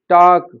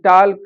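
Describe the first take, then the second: First: The L sound is silent. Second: The L sound is pronounced. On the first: The speaker calls it right. "इनमें L silent होता है" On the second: The speaker calls it wrong. "लेकिन वो इनको भी ... करके पढ़ते हैं"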